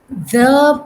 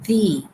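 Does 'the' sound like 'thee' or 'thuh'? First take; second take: thuh; thee. First: It is said with a short, weak vowel. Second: It is said with a long 'ee' vowel. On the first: A consonant sound follows it. "in front of nouns beginning with consonant sounds" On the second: A vowel sound follows it. "The becomes the when you have a vowel sound"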